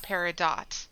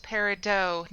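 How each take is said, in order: First: "peridot" ending like the word "dot"; sounded-T pronunciation. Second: "peridot" ending in a "doh" sound, T left silent; silent-T pronunciation. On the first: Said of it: "not peridot". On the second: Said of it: "it's pronounced peridot". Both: Shown as a demonstration.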